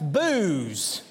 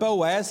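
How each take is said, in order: First: The name is one syllable rhyming with news. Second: The name is said with two syllables. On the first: This is a pronunciation used in one particular town. "Or if you live in that town, perhaps it's Booze" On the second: This is the speaker's own usual pronunciation. "while I would pronounce that word Boaz"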